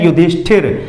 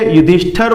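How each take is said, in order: First: The last syllable is said as 'thir'. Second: The last syllable is said as 'thar'. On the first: The speaker calls it right. "उसे कहते हैं युधिष्ठिर।" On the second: The speaker calls it wrong. "हम इसे युधिष्ठर बोल देते हैं, युधिष्ठर ठर नहीं है।"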